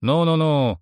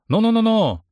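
First: Said in the usual way. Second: Higher and louder, breaking it up; loud calming. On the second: A narrator's reading. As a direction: call out over the quarrel. Stepping between quarrelling men.

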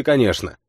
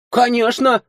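First: Said in the usual way. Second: Put-on high, offended girl; offended snort. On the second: A narrator's reading. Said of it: "обиженно фыркнула девушка".

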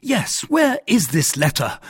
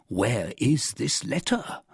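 First: High, loud echo of the question; raised-voice demand, pitched high; indignant cry. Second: Slow, drawn-out question with a final rise; measured, rising query; questioning host. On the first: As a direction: throw the question back loudly, falling at the end. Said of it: "cried D'Artagnan". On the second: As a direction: ask slowly, lifting the end. Host now questions the guest. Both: A narrator's reading.

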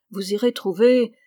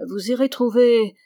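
First: "vous irez trouver" trailing off, unsure of the word; hesitant. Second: "vous irez trouver" said louder, stress landing on "irez"; firm after hesitating. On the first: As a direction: hold back on "trouver", searching for it. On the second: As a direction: push through the hesitation on "irez". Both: A narrator's reading. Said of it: "il hésita sur le mot".

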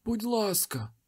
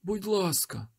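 First: High desperate pleading; beg, pitched high and thin; frightened high begging. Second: High desperate pleading; frightened high begging; pleading again. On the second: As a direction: beg once more, pitched high. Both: A narrator's reading. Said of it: "попросив той чоловік".

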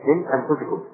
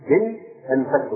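First: أنفسكم with a short u after the f; majority reading, damma. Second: أنفسكم with a short a after the f; variant reading, fatha. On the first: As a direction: say أنفسكم as anfusikum, not anfasikum. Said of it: "لكن الجمهور". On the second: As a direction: say أنفسكم as anfasikum, not anfusikum. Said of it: "قراءة أخرى". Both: Shown as a demonstration.

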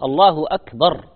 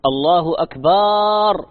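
First: "الله أكبر" with a short, clipped final a in "أكبر"; correct short akbar. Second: "الله أكبر" with the last syllable drawn long into akbaar; wrongly stretched akbaar. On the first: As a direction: say "أكبر" correctly, the last vowel kept short. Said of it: "هذا ما يجوز". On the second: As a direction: stretch the final a of "أكبر" slowly, as the mistake. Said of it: "وأكبر هذا جمع كبر". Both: Shown as a demonstration.

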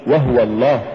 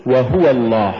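First: "وهو" squashed to wah-wa, ha left vowelless; faulty reading of وهو الله; mispronounced وهو. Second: "وهو" as wa-HU-wa, full u on the ha; careful model reading of وهو الله; correct وهو. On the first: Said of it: "ولا تقل". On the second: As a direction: say وهو الله with three clear syllables in وهو. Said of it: "قل". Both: Shown as a demonstration.

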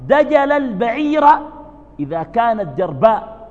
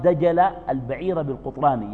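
First: Raised high and loud, slow, each word weighed; emphatic proverb citation. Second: Said in the usual way. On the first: Shown as a demonstration. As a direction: proclaim the proverb loudly and slowly. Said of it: "وتقول العرب". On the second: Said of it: "يقال".

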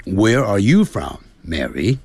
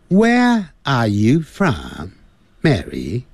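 First: American English with curled Rs; unhurried American pronunciation, Rs sounded; American accent. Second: Very slow British English, no Rs; higher, drawn-out British pronunciation; British accent. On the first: Teacher models John's question to Mary in American English. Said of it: "那在美式英语就是". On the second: Teacher models John's question to Mary in British English. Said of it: "在英式英语". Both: Shown as a demonstration.

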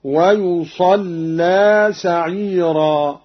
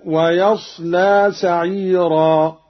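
First: Slow recitation with ويصلى read "wa-yusallaa"; damma, doubled lam. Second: Slow recitation with ويصلى read "wa-yaslaa"; fatha, light lam. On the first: Teacher shows Qalun's reading, doubled lam. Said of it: "وتشديد اللام هكذا". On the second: Teacher quotes the verse before Qalun's variant, light lam. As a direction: say ويصلى with ya, still sad, single lam. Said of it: "بضم الياء". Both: Shown as a demonstration.

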